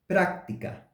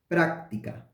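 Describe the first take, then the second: No difference in how they are said.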